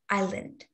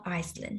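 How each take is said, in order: First: The word is said with no s sound. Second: The word is said with an s sound. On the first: The speaker calls it right. "The S here is silent, so it is pronounced island" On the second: The speaker calls it wrong. "not Iceland"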